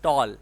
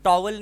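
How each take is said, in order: First: It is said with no W sound inside. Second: It is said with a W sound inside. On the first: The speaker calls it right. "it's tall. ... you don't have to pronounce W" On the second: The speaker calls it wrong. "Towel नहीं होता है"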